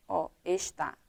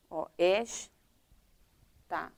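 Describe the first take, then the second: First: "está" said as a wrongly split word, its syllables broken in the wrong place. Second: "está" stretched very slowly, split cleanly into es-tá; correct syllable split. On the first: Teacher showing pupils a wrong split of "está". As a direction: break "está" at the wrong spot, as if only the A was left on the line. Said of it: "Eu deixei só o A pra cá". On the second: Teacher showing pupils the right way to split "está", very slow. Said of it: "Agora sim, eu dividi em sílabas". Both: Shown as a demonstration.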